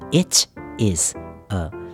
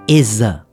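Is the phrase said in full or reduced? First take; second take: full; reduced. First: All three words are said in full. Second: It is said fast, reduced to two syllables. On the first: "这个is a 的意思就是It is a" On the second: "缩写起来我们用一个比较快速的念法就会变成Is a"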